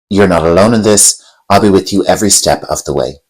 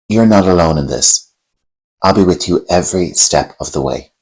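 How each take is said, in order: First: It is said faster, with no emotion. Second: It is said slowly, with a pause.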